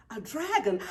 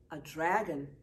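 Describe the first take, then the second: First: Louder breathless gasp of wonder. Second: Said in the usual way. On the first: A narrator's reading. Friends spotting the old dragon costume, gasping. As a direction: gasp it in amazement. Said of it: "gasp Sam and Willa". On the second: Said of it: "agrees Amy".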